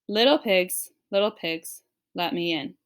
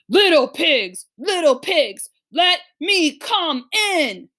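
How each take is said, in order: First: It is read in a plain, ordinary voice. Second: It is read in a big bad wolf voice.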